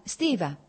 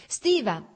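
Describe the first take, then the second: First: Said in the usual way. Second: Called out higher and louder to stop him; calling out. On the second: A narrator's reading. Dolly calling her husband back, higher and louder. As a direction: raise your voice to catch his attention. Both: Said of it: "disse Dolly arrossendo".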